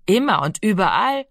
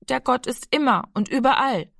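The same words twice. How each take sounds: First: Scornful repeat with a rising end; older brother mockingly repeats the little boy's words; mocking echo. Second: Blurted out. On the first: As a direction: throw his words back at him with contempt. Giro mocks Rami's words. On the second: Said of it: "stieß Rami heraus". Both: A narrator's reading.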